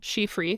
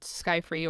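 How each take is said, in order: First: The name is said with Norwegian pronunciation. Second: The name is said with English pronunciation.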